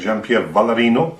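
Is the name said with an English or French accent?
English. The name is said with an English accent. The speaker calls it wrong.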